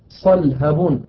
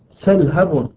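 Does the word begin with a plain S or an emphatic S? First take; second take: emphatic S; plain S. First: The word begins with an emphatic s sound. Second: The word begins with a plain s sound.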